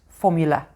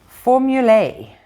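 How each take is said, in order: First: The word ends with an 'uh' sound. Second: The word ends with an 'ay' sound. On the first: This is what everyone actually calls it. "It's just formula" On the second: This is the official name. "pronouncing the A like as in day"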